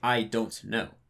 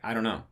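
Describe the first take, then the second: First: Every syllable is pronounced clearly and separately. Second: The words are blurred together and reduced. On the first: Natives would not say it this way. "I wouldn't say" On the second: This is how natives really say it. "in my dialect of English, I always I would say"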